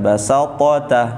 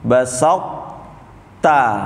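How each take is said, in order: First: The first t is released with a bouncing vowel. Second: The first t is formed but not released. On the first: The speaker calls it wrong. "yang nggak boleh itu yang dipantulkan" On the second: The speaker calls it right. "To-nya dibentuk tapi jangan dipantulkan"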